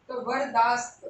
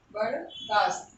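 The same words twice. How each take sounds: First: Said in the usual way. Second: वरदास्त stretched out slowly, syllable by syllable, ending low; very slow teacher's dictation of वरदास्त. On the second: Shown as a demonstration. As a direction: spell वरदास्त out slowly for the class to write down.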